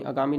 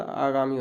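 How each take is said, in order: First: Short first a in आगामी, as a-gaa-mee; teacher showing the short-vowel mistake; wrong pronunciation. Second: Long opening aa in आगामी; teacher modelling aa-gaa-mee; correct pronunciation. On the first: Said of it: "आगामी नहीं होता". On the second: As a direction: open आगामी with a full, held आ. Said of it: "आगामी होता है". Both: Shown as a demonstration.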